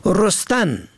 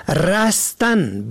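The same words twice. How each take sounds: First: رستن said "rostan", with o; short o first. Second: رستن said "rastan", with a; short a first. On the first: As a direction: say رستن as "ROS-tan". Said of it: "به ضم اول". (رستن با ضم اول، «رُستن») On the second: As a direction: say رستن as "RAS-tan". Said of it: "به فتح اول". (رستن با فتح اول، «رَستن») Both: Shown as a demonstration.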